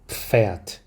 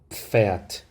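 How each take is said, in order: No difference in how they are said.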